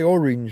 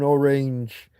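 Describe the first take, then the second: First: The ending rhymes with binge. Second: The ending rhymes with range. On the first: "if you say orange like I do, then you can make syringe rhyme with it" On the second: "with more of an orange, then you've got home on the range"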